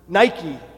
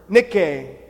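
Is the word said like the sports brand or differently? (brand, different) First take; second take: brand; different. First: It is pronounced like the sports brand name. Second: It is pronounced unlike the sports brand name. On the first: "or as the famous athletic company today pronounces it" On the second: "he said but one word"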